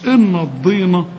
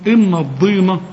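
First: The d sound is heavy and emphatic. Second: The d sound is heavy and emphatic.

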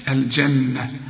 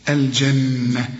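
Both takes have the same delivery.

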